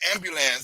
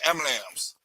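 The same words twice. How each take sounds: First: The word is said in its full, longer form. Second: The word is said in a clipped, shorter form. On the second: "We say ambulance"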